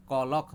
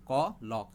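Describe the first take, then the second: First: Said in the usual way. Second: KOLOK broken into KO, LOK; split into syllables. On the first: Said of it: "hama bathak jong thango kolok". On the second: Shown as a demonstration. Teacher showing two sounds in a word, KOLOK split as KO, LOK. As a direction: say KOLOK as two separate beats, KO then LOK. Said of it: "kainui je tamo sound pep laka".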